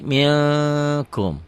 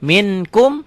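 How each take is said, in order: First: MILKUM as "ming-kum", long held ng; held ikhfa. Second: MINKUM with a clear n, raised pitch; written form. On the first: Teacher shows the reading, slow held ng. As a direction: draw out the hidden n before KUM. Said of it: "Dibacanya jadi". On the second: Teacher reads the word as written, clear n. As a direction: say MIN-KUM as spelled, n fully sounded. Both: Shown as a demonstration.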